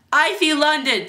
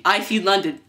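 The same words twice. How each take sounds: First: High, loud playground taunt; jeering. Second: Said in the usual way. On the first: Acted. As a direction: tease him for all to hear. Kids jeer at boy.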